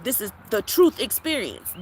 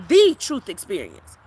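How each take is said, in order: First: Said in the usual way. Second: The truth experience, slow and louder, each word weighted; slow emphatic repeat. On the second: Real, not acted. Repeating her slogan to viewers, slow and louder. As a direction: drive "truth experience" home slowly and louder. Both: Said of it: "I'm the truth".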